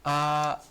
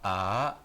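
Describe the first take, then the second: First: The pitch stays high and level. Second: The pitch rises from middle to high. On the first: "yang pertama" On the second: "yang kedua"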